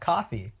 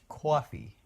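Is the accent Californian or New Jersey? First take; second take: Californian; New Jersey. First: It is said in a Californian accent. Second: It is said with a New Jersey O sound. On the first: "and I'm like, yeah" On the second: "She's from New Jersey, so she's got that oh"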